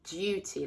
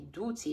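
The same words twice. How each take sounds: First: The first vowel is a 'you' sound. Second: The first vowel is a plain 'oo' sound. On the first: The speaker calls it right. "it would be duty, like you" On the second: The speaker calls it wrong. "it wouldn't be duty"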